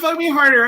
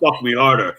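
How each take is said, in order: First: Spoken in an eager, pleading, submissive voice. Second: Spoken in a low, commanding, dominant voice. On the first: The speaker is taking the submissive role. "then I'm a, I'm a submissive" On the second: The speaker is taking the dominant role. "I probably lower my voice a few octaves"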